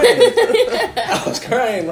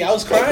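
First: Slow, laughing, higher, louder; drawn out through laughter. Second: Said in the usual way. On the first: Real, not acted. Repeats laughing.

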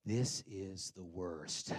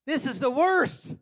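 First: Slow, low, softer moan; low groan to wife. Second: High, loud and slow; loud wail. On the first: Retold or imitated. Stuck in drive-thru, complaining to wife in slow low moan. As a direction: sink into defeat. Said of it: "I turned to my wife and I said". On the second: Shown as a demonstration. Stuck in the drive-thru, loud high wail. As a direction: howl in exasperation. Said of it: "I'm, yes".

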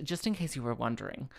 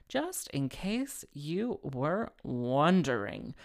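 First: Said in the usual way. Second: Drawn out word by word; slow, deliberate repeat. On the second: Real, not acted. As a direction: stretch each word with mock significance. Repeats aside slowly for comic emphasis.

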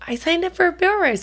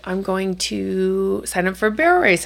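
First: Put-on much higher, quick kid voice; imitating daughter. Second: Said in the usual way. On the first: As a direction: play the eager daughter, high and fast. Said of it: "she said".

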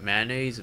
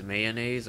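First: "mayonnaise" as "MAN-aze", two syllables; short mayonnaise. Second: "mayonnaise" as "MAY-uh-naze", three syllables; long mayonnaise. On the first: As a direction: squash "mayonnaise" to "man-naise". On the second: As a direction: sound out all of "mayonnaise". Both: Shown as a demonstration. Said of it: "is it mayonnaise, mayonnaise, or?".

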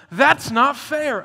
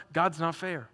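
First: Loud, slow, drawn-out complaint; indignant protest. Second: Said in the usual way. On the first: Retold or imitated. Listeners protest the parable, loud and slow. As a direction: drag out every word in protest. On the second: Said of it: "here's what I want you to know".

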